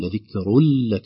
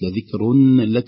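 First: The n merges into a doubled l sound. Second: The n is pronounced clearly before the l. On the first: The speaker calls it right. "اللام في لك مشددة بسبب أيضا إضغام نون التنوين" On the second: The speaker calls it wrong. "ليست لذكر لك، ليس في هناك إظهار"

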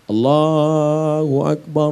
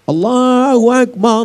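First: The phrase is said softly and gently. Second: The phrase is said loudly and forcefully. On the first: It is gentle enough for a newborn's ear. The speaker calls it right. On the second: It would startle the baby. The speaker calls it wrong. "Tapi tidak kuat macam itu, terkejutlah dia"

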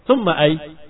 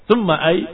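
No difference in how they are said.

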